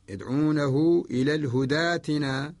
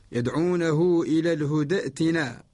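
First: ائتنا joined to الهدى with a long aa in place of the hamza; Warsh reading. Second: Said in the usual way. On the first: Shown as a demonstration. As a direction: recite الهدى ائتنا as hudaatina, no glottal stop. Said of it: "برواية الإمام ورش". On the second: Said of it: "الأصل".

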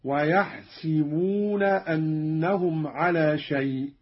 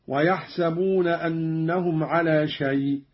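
First: ويحسبون recited slowly as "yahsibuna", with i after the s; slow recitation, ويحسبون with "si" for "sa"; kasra on sin. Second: Said in the usual way. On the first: Shown as a demonstration. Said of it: "بكسر السين من يحسب هكذا". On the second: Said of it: "بكسر السين من يحسب".

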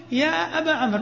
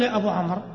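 First: أبا said with long final a, jaa ba; correct form. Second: أبو said with long final u, jaa bu; quick light line with أبو ending in u; wrong form. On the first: Teacher tells students to say أبا with long a. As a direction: clear model line with أبا ending in a. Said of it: "ما تقول يا أبو عمرو". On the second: Teacher shows students the wrong أبو with u. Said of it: "ما تقول". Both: Shown as a demonstration.

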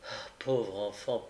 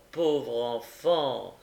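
First: Tender pity. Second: Put-on old gentleman bending over the fainted boy; tender pity, slowed. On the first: Acted. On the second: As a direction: draw out "pauvre enfant" with compassion. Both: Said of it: "dit monsieur Brownlow en s'abaissant".

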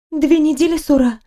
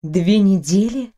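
First: Higher bright nurse voice; a cheerful nurse informing her patient; chirpy nurse. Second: Mild gasped disbelief, slower; gasped echo. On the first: Acted. Nurse tells the patient, a chirpy higher voice. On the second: A narrator's reading. Heroine echoes the nurse, slow stunned disbelief. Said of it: "ахнула я".

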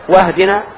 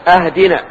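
First: "واهدنا" with the hamza joined, no stop, from guidance; hamza joined, right reading. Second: "أهدنا" said with a firm cut hamza, as in give us a gift; hamza cut, wrong reading. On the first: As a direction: glide into "واهدنا" without a glottal stop. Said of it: "من الهداية". ("واهدنا" بهمزة وصل من الهداية) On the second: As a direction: start "أهدنا" with a clear glottal stop on the alif. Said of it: "أهدنا يعني أعطنا هدية". ("أهدنا" بهمزة قطع واضحة كأنها من الهدية) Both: Shown as a demonstration.

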